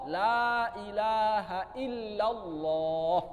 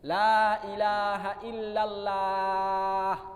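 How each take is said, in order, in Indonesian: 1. Lam-nya tebal, dengan vokal yang mendekati o. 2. Lam-nya tipis, dengan vokal a yang tipis. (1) "Maka yang cocok adalah Allah" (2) "Kalau saya ucapkan begini, bapak-bapak mungkin telinganya nggak enak dengarnya"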